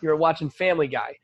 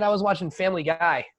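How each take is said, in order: First: "Family Guy" with the weight on Family; corrected stress. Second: "Family Guy" with the weight on Guy; misplaced stress. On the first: Shown as a demonstration. Correcting whoever names the show, stress on Family. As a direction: punch "Family", let "Guy" drop after it. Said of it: "you fucking weren't". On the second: Retold or imitated. Mimicking someone naming a show, stress on Guy. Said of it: "emphasis on the wrong side".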